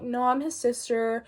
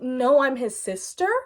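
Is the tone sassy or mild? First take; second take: mild; sassy. First: It is said mildly, without much sass. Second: It is said with a lot of sass.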